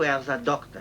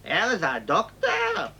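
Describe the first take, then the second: First: It is said as a plain, neutral statement. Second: It is said with a mocking, sarcastic tone. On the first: He simply works as a doctor. "If you say, what does this guy do?" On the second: He is a quack. "If you want to say the guy's a quack"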